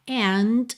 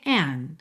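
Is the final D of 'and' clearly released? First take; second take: yes; no. First: The final D is clearly released. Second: The final D is not audibly released. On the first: "você ouve o t, essa percussão do D" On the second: "ou você pode ouvir and"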